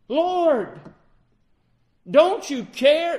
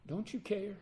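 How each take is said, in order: First: Loud, high, slow cry for help in a storm; desperate cry. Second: Quiet plea. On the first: Frightened disciples cry to the sleeping Lord, loud and desperate. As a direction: call out over the wind, pleading. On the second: Disciples pleading, soft repeat. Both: Acted.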